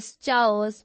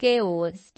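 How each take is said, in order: First: Chaos started with ch as in chair, chay-os; wrong ch in chaos. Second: Chaos said kay-os, a hard k at the start; correct chaos with k. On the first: Teacher recalls her old mistake to students, chaos with ch. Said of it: "मैं उसको पढ़ती थी chaos". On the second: Teacher gives students the right chaos, k sound. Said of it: "वो word होता था chaos". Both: Shown as a demonstration.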